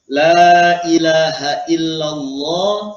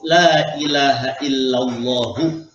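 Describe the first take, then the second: First: The final word ends in pausal form, without vowel. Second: The final word keeps its ending vowel, connected onward. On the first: The reader stops after the phrase. "kalau waqaf" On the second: The reader continues without stopping. "kalau tidak waqaf"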